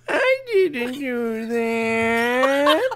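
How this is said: It is said unsurely, almost like a question.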